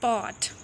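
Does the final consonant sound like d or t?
t. The final consonant is a clear t sound. "हम कहते हैं पॉट"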